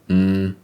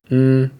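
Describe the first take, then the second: First: The hum is on a low pitch. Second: The hum is on a middle pitch. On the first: "With a low tone or tone three" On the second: "With a mid-tone or tone two"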